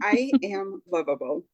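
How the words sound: The voice falls firmly at the end.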